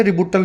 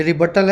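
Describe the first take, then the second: First: "रिबूटल" with a long oo in the middle; students' mispronounced "रिबूटल", built on the sound of boot; mistaken pronunciation. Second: "रिबटल" with a short uh in the middle; teacher's model "रिबटल", built on the sound of but; correct pronunciation. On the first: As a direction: say "रिबूटल" as ri-BOO-tal. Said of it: "कुछ बच्चे रिबूटल भी बोलते हैं". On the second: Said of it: "ये रिबटल है". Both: Shown as a demonstration.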